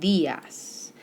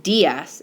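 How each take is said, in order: First: DIAS with a soft D, like "th" in "this"; soft Spanish D. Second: DIAS with a hard, punched English D. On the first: Teacher modelling Spanish "dias" for students, soft D. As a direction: soften the D of "dias" to a gentle th. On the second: Teacher showing students the mistake in "dias", hard D. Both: Shown as a demonstration. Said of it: "it's a little bit softer".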